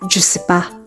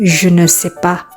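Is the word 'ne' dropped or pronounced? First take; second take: dropped; pronounced. First: The word ne is left out. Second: The word ne is clearly pronounced.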